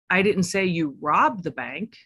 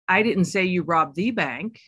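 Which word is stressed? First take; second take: robbed; the. First: The stress is on the word robbed. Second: The stress is on the word the.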